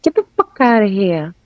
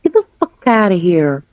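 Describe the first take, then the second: First: "here" copied with a New York ending; corrected New York "here". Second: "here" copied in a careful non-New York accent; "here" said too properly. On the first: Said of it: "There you go". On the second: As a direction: get "here" wrong, copying a New Yorker. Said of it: "Don't say here. You say here". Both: Shown as a demonstration.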